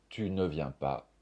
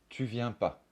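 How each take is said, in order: First: Said in the usual way. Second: "tu viens pas" said without the ne; ne dropped. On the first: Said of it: "Par exemple". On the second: Shown as a demonstration. Teacher showing students the dropped ne in "tu viens pas".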